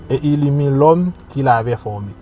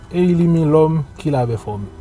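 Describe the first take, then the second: The two takes are said the same way.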